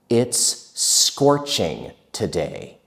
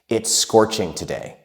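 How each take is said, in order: First: It is spoken at a normal, careful pace. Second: It is spoken quickly, as in casual speech.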